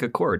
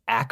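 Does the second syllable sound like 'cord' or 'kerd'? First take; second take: cord; kerd. First: The second syllable is a full 'cord'. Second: The second syllable is a reduced 'kerd'. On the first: This is how outsiders read the spelling. The speaker calls it wrong. "you would think Accord, and that's what we kept calling it" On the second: This is how locals say the name. The speaker calls it right. "some local at one point was like, it's Ackerd"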